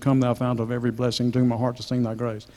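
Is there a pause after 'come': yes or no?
no. Come runs straight on with no pause.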